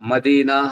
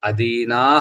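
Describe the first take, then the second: First: The word begins with an m sound. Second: The word begins with a vowel sound. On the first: The speaker calls it wrong. "అక్కడ మదీనాహ అని చదువుతుంటారు" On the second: The speaker calls it right. "అదీనాహ అన్నది"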